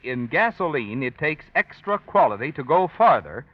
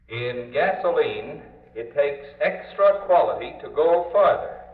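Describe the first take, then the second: First: The voice sounds direct, without loudspeaker processing. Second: The voice sounds played through a loudspeaker system.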